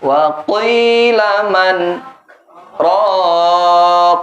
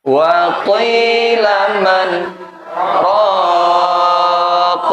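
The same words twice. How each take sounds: The two takes are said the same way.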